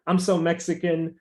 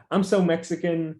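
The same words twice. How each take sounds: The two takes are said the same way.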